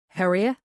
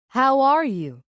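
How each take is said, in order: First: It is said in an Irish accent. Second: It is said in an American accent. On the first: "An Irishman would simply say" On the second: "now using an almost perfect American accent"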